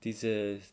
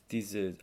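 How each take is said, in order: Both takes have the same delivery.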